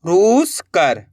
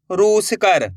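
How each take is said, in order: First: रूस कर split, with रूस stretched and rising, then कर falling; teacher's slow read-back of रूस ... कर in two pieces; word in two parts. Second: Said in the usual way. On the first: Shown as a demonstration. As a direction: draw out रूस, pause, then land on कर. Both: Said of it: "तो मिलके बन गया".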